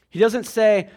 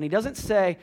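First: "He doesn't say" louder, stress on "say"; repeated with emphasis. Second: Said in the usual way. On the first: Shown as a demonstration. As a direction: press the "say" harder the second time.

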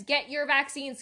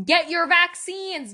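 First: Said in the usual way. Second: Higher, louder and slower, pleading in earnest; loud urging. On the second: Real, not acted. Begging listeners to stay safe, loud urgent plea. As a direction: plead hard with "Get" hit up high.

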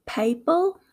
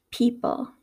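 First: "people" with a gliding "pay" first syllable; Southern pronunciation. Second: "people" with a pure "pee" first syllable; Midwestern pronunciation. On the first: Teacher contrasting accents, "people" said Southern as "pay-pul". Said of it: "in the Southern accent". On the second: Teacher contrasting accents, "people" said Midwestern as "pee-pul". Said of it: "in my Midwestern accent". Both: Shown as a demonstration.

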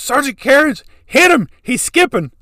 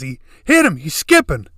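First: Much higher and louder, shouting the order; panicked shout to the sergeant; yelling over the truck noise; frantic yell. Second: Higher and louder, yelling it again; shouted repeat of the plea; yelling again to the sergeant; urgent shout. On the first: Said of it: "He goes". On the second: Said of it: "He just says". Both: Retold or imitated.

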